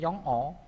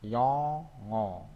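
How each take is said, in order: First: The two syllables are said separately. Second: The final consonant links into the next vowel. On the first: "Tulisannya seperti ini" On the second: "Jadi dibacanya yongo"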